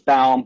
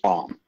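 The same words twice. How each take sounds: First: The name is pronounced the German way. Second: The name is pronounced the American way. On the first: "the German pronunciation is Baum" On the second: "The American is Baum"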